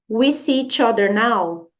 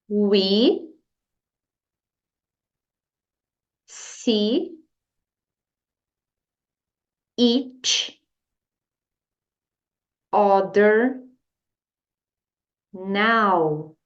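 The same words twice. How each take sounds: First: The whole sentence is said in one flow. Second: Each word is said separately with pauses between. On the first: "Agora a frase inteira" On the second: "Agora vamos palavra por palavra"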